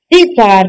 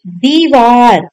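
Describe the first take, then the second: First: दीवार with a short first i; wrong short i. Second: दीवार with a long ee in दी; correct long i. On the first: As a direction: say दीवार as "divaar". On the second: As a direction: say दीवार slowly as "deevaar". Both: Shown as a demonstration. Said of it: "दीवार नहीं".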